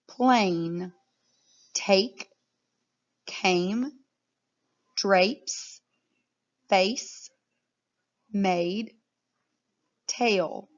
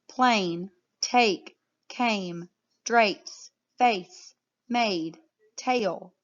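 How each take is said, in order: First: The words are read at a slower pace. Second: The words are read at a faster pace.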